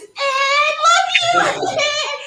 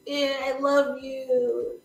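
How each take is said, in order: First: High shrieking superfan; hammed-up hysterical adoring yell; Anna. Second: Slow, drawn-out adoring fan; mock lovestruck moan, held back; Anna. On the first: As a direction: scream it from the back of the room. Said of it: "Anna is in the back of this room like this". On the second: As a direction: stretch it out like a swooning superfan. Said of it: "this is where Anna becomes like".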